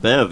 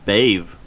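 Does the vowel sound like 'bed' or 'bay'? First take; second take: bed; bay. First: The vowel sounds like the one in 'bed'. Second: The vowel sounds like the one in 'bay'. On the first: The speaker calls it wrong. "I was pronouncing that wrong. I was pronouncing it Bev" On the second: The speaker calls it right. "It's Bave"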